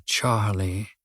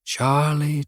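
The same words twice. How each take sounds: First: Charlie dropped low and much softer, trailing away; name fading out. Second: Charlie lifted slightly, tasting the name; savouring the name. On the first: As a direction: let the last Charlie sink to almost nothing. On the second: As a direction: roll the name Charlie around slowly, first take. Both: A narrator's reading. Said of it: "rolled the name around his mouth".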